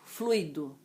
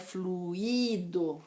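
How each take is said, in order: First: The stress falls on the 'flu' syllable. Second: The stress falls on the 'i' syllable. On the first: The speaker calls it right. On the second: The speaker calls it wrong.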